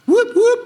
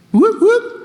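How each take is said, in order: First: High whooping police siren; siren imitation. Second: High loud whooping siren; siren imitation. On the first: Storyteller imitating the police siren, high and loud. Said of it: "Wow, very good". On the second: Telling of being stopped again, siren whoop. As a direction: mimic the police siren.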